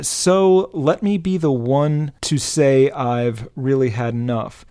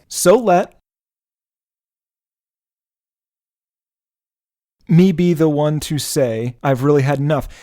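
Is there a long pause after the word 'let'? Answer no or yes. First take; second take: no; yes. First: It flows without a long pause after let. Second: A pause of about four seconds follows let.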